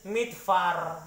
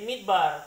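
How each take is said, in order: First: The consonant after 'mid' is a soft f sound. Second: The consonant after 'mid' is a hard b sound. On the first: The speaker calls it wrong. "Kita juga tidak baca ini midfar ya" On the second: The speaker calls it right. "Karena ada titik di tengah ini ya. Jadi menjadi mid bar"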